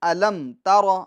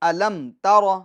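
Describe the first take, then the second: Both takes have the same delivery.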